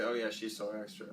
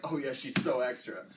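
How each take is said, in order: First: Low, softer, offhand remark; lower, understated take on "so extra"; neutral connotation. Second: Pointed remark, leaning on "so"; a knowing comment with stress on "so"; loaded connotation. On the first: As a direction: say it low, without much weight on "extra". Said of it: "depends on the connotation". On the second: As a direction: put more weight on "so extra". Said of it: "They're different things". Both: Shown as a demonstration.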